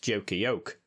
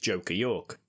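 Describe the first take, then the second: First: The last word is said like 'yoke'. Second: The last word is said the usual way.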